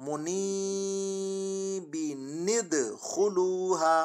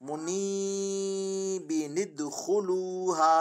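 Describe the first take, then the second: Both takes have the same delivery.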